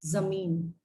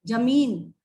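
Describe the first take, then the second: First: जमीन with a z sound; with nukta. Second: जमीन with a hard j sound; without nukta. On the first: Teacher shows students जमीन with the nukta. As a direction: start जमीन with a buzzing z as in zoo. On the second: Teacher shows students जमीन without the nukta. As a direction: start जमीन with a plain j as in jam. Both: Shown as a demonstration. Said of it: "नुक्ता लग जाएगा".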